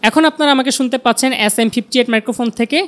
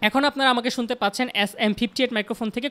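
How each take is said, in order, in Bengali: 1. ভয়েসটি সামান্য এডিট ও বুস্ট করা হয়েছে। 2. ভয়েসটি কাঁচা, কোনো প্রসেসিং নেই। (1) "এখানে আমি হালকা একটু এডিট করেছি, অডিওটা একটু বুস্ট করেছি" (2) "কোনো প্রকার এডিট করা হয়নি, হান্ড্রেড পার্সেন্ট র ভোকালটি"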